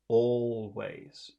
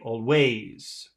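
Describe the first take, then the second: First: The stress is on the first syllable. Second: The stress is on the second syllable. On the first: The speaker calls it right. "It's the first one" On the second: The speaker calls it wrong. "That would be always, but it's not"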